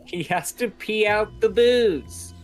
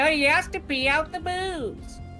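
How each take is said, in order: First: It is said in his normal voice. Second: It is said in a grandma-like voice.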